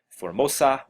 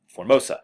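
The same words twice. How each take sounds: First: The word is said with an Italian accent. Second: The word is said with a plain English accent. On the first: The speaker calls it wrong. "I'm not sure why I said Formosa in an Italian accent" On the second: The speaker calls it right. "there we go"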